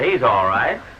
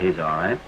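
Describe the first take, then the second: First: It is said loudly and with more force. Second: It is said quietly and flatly.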